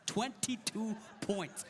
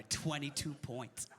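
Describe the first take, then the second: First: "Twenty-two points" slow, each word set apart; gloating emphasis. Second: Said in the usual way. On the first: Retold or imitated. Gloating repeat of the score.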